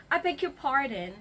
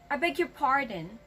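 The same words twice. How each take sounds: First: It is said in an angry tone. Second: It is said in an angry tone.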